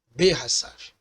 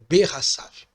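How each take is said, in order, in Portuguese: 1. A primeira vogal é um 'e' curto e reduzido. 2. A primeira vogal é um 'e' curto e reduzido.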